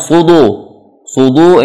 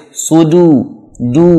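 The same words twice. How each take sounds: First: "sudu" with D heavy, toward "sudo"; wrong thick dal. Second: "Sudu" with a light D, pure U; thin dal. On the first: Teacher showing learners the mistake, thick D in "sudu". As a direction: darken the D of "sudu" into a dhad. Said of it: "ini jadi dhad". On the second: Teacher correcting the letter, thin "du" in "Sudu". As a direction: keep the D thin in "du", not "do". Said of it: "dal tipis". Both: Shown as a demonstration.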